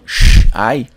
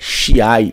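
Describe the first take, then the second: First: The i after sh is silent. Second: The i after sh is clearly heard. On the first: The speaker calls it wrong. "e não shai" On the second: The speaker calls it right. "é shiai"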